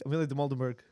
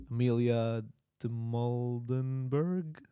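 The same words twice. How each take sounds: First: Said in the usual way. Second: Slow, unsure first try at the name Amelia de Moldenberg. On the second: Shown as a demonstration. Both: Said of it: "Just say it with confidence".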